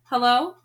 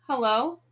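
First: Loud questioning call; raised, questioning hello. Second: Tentative rising greeting; hesitant, questioning call; uncertain. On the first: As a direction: call into an empty house, rising at the end. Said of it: "she called". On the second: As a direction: say hello unsure who will answer. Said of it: "Gretel said uncertainly". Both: A narrator's reading.

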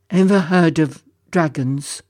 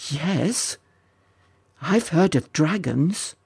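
First: Lightly voiced sorrowful dragon; a touch of creature voice; sniffling dragon. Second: Tentative, mildly astonished lad; understated wonder; disbelieving. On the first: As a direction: ask haltingly as a sad dragon. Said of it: "a deep sigh and a real volley of sniffles". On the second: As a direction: answer warily, hardly believing it. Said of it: "could hardly believe his ears". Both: A narrator's reading.

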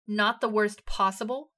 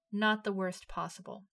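First: Loud, slow outraged echo; incredulous shout. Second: Said in the usual way. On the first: A narrator's reading. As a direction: throw "Not the worst possible?" back, shouting. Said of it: "Eren shouted".

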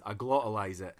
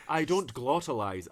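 First: "glottalize" with a glottal stop for T. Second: "glottalize" with a clearly sounded T. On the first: Dundonian contrasting two ways, glottal stop in "glottalize". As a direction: drop the T in "glottalize" into the throat. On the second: Dundonian contrasting two ways, crisp T in "glottalize". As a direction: pronounce the T fully in "glottalize". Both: Shown as a demonstration.

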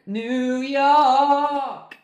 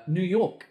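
First: High, loud, long-held sung notes; sung, belt NEW YORK like an anthem; belted singing. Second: Said in the usual way. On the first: Acted. Breaks into the song.

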